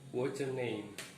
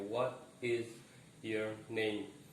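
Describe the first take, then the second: First: The words run together, linking what's and your. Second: Each word is said separately without linking. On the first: This is how Americans usually say it. "Terjadi penyambungan uh, di antara what's dan your" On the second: This is the careful, correct but non-native way. "Walaupun pengucapan kita betul ya"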